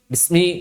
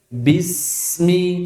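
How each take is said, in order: First: The s sound is cut short quickly. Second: The s sound is drawn out smoothly. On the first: The speaker calls it wrong. "Jangan cepat-cepat" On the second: The speaker calls it right. "Tapi alirkan"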